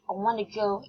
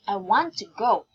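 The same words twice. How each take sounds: First: "Want to" is reduced to "wanna". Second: "Want to" is said fully, word by word. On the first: "not like that" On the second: "the formal way"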